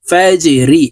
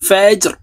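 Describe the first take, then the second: First: The word ends with a short i vowel. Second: The word ends on a bare r sound. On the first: "জিম কলকলার হরফ ধাক্কা দিয়ে উচ্চারণ করতে হবে" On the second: "রকে ওয়াকফের ক্ষেত্রে সাকিন করে ফেলবো"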